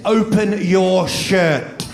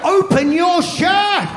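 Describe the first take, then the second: First: Slow, deliberate command; mock stern midwife order; retold stern order. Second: High, slow, shouted repeat of the order; mock yelled midwife order. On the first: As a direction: spell out the order slowly, a touch stern. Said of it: "looked at me and said". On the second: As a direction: yell it again, much higher and slower, hammed-up. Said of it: "repeats the order".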